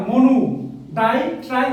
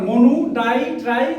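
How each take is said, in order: Both takes have the same delivery.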